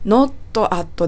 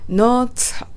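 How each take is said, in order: First: "Not at" as two separate Japanese-style words, notto atto. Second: "not at" run together like "no-tsat"; linked, strong T. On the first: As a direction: say "Not" and "at" apart, unlinked. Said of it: "atではなく". (「Not at」を「ノット・アット」と切り離して) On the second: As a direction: link "not at" through a strong, ts-like T. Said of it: "not atと発音しましょ". (「not at」を「ノーツァッ」のようにつなげて) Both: Shown as a demonstration.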